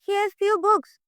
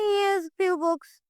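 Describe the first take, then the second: First: It is said in a happy, positive tone. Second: It is said in a sad, negative tone. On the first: Having these books is a good thing. "ये positive वे में बोल रहा है" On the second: Having so few books is a bad thing. "एक दुखी होके बोल रहा है"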